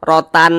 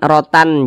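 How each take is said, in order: The two takes are said the same way.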